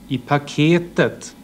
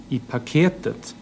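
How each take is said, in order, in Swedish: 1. Accenten faller på tredje stavelsen. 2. Accenten faller på tredje stavelsen.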